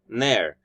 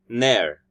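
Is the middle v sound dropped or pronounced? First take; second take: dropped; dropped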